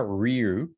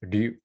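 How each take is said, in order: First: It starts with a full English-style r sound. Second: It starts with a quick sound between r and l. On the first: The speaker calls it wrong. "It's not ryu" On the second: The speaker calls it right. "kind of like a mix of like an R and L"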